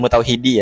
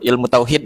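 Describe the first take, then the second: First: The word ends with a final i vowel. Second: The word ends on the consonant, vowel dropped. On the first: The speaker calls it wrong. "enggak pakai ilmu tauhidi ya" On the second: The speaker calls it right. "Sebagaimana kita nyebut ilmu tauhid"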